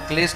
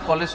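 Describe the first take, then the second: First: The word starts with a kl consonant cluster. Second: A vowel separates k and l at the start. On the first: The speaker calls it right. "ক্লেশ না বলুক" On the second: The speaker calls it wrong. "কলেশ তো বলুক কমসে কম"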